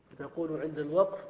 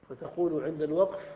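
Both takes have the same delivery.

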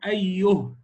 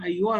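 First: The word ends on a stopped h sound. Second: The word flows on without a stop. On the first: The reader pauses on this word. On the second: The reading continues into the next word.

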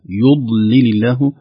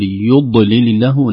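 First: The ض sound is released smoothly without bouncing. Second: The ض sound bounces audibly on release. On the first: The speaker calls it right. "لكن الصحيح ... خوفا من قلقلتها" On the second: The speaker calls it wrong. "نخشى أن ينطبق الضاد انطباقا شديدا فيقلقل عند نزع اللسان"

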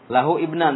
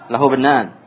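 First: Each word is said separately, vowel of ibnan kept. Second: The words run together, vowel of ibnan dropped. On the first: The speaker calls it wrong. "Kalau mau satu-satu, diparsialkan gitu. Dipecah-pecah" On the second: The speaker calls it right. "Tapi kalau yang bacaan yang betul, lahub"

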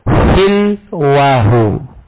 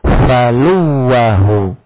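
First: First vowel is 'i', with a single 'w'. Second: First vowel is 'a', with a doubled 'w'. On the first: "Kalau dibaca kasroh, maka lamnya disukun. Lamnya disukun, wawnya takhfif" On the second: "Kalau fa-nya di fathah, maka lamnya wajib dhammah, wawnya tasydid"

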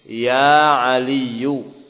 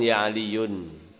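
First: The name ends in a vowel, no final n. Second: The name ends with an added n sound. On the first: The speaker calls it right. "Dimabnikan di atas tanda rafa'nya tanpa tanwin" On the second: The speaker calls it wrong.

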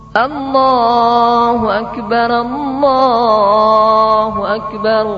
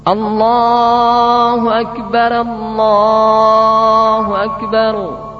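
Both takes have the same delivery.

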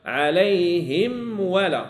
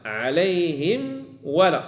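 No difference in how they are said.

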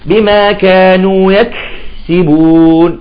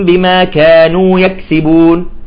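First: The k sound is held and drawn out. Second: The k sound is swallowed and barely heard. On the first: "يعني بيأخذ راحة فيها" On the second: "يأكل الكاف"

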